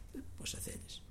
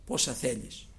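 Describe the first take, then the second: First: Whispered "Δεν πει πόσα θέλεις". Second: Said in the usual way. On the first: Shown as a demonstration. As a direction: breathe it out with no voice. (ψιθυριστά)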